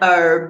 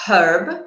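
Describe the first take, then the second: First: The word begins without any h sound. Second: The word begins with an audible h sound. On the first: This is the American pronunciation. "in the U S, an herb, not pronouncing the H" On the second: This is the British pronunciation. "In the U K, we would say a herb using a h sound"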